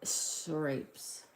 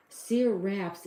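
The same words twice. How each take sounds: First: "Scrapes" with a long A, like scrapes; mispronounced name. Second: "Seraps" in two beats, ending like raps; "Seraps" said carefully, rhyming with perhaps; corrected pronunciation. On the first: Real, not acted. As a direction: say "Scrapes" to rhyme with grapes. Misread name, corrected later. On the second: Shown as a demonstration. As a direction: sound out "Seraps" slowly, short A in the last syllable. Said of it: "is the pronunciation".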